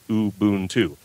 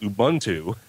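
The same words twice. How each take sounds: First: Both U vowels have the same sound. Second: The U vowels have different sounds. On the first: The speaker calls it right. "the U is always sounds the same" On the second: The speaker calls it wrong. "that's an English way"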